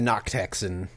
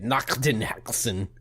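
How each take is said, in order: First: The consonants are soft and plain. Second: The consonants are harsh and spitty.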